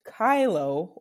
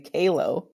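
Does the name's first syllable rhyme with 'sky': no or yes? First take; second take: yes; no. First: The first vowel sounds like 'eye'. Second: The first vowel does not sound like 'eye'. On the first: The speaker calls it right. "is pronounced Kylo" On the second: The speaker calls it wrong. "for my friends over in the UK, like to say Kalo"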